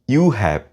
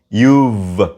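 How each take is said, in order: First: Both words are said fully and separately. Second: The words merge into one contracted syllable. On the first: The speaker calls it wrong. "Don't say you have" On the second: The speaker calls it right. "Say you've"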